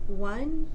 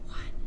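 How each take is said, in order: First: The voice is relaxed and fully voiced. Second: The voice is a breathy whisper without tone. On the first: "an example of normal voice production" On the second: "followed by an example of whispering"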